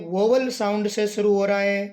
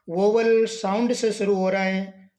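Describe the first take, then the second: No difference in how they are said.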